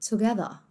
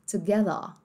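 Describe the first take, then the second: No difference in how they are said.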